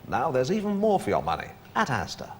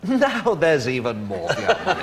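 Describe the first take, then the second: First: It is said plainly, without laughter. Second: It is said with a laugh in the voice.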